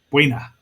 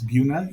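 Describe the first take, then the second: First: The first syllable sounds like 'bway'. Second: The first syllable sounds like plain 'boo'. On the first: The speaker calls it right. "even though it's spelled B U E. Buena" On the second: The speaker calls it wrong. "cannot pronounce Buna ... they pronounce it Buna"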